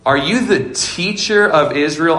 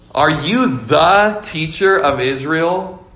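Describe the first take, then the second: First: The word teacher carries the main stress. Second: The word the carries the main stress. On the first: The speaker calls it wrong. "I emphasize teacher" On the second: The speaker calls it right. "I meant to emphasize the word "the.""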